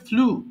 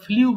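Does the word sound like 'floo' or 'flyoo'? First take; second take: floo; flyoo. First: It has no glide, like 'floo'. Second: It has a y-glide, like 'flyoo'. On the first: The speaker calls it right. "But এটা হবে ফ্লু" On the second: The speaker calls it wrong. "এটা সারা জীবনে আমরা ফ্লিউ বলে আসছি"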